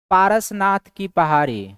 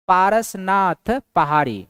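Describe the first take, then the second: First: Said in the usual way. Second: Parasnath पहाड़ी said slowly, stress on Parasnath; a teacher spelling out the name slowly; slow repeat for emphasis. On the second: Shown as a demonstration.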